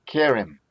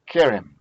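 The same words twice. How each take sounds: First: Said in the usual way. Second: Kerem louder, first syllable KE punched; stressed tone syllable. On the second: Shown as a demonstration. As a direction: hit KE in Kerem hard. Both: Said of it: "The tone syllable is the K".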